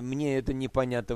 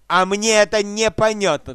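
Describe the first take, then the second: First: It is said in a polite, humble tone. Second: It is said in a challenging, defiant tone.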